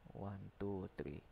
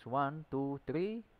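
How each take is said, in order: First: The voice is softer and quieter. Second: The voice is at normal loudness.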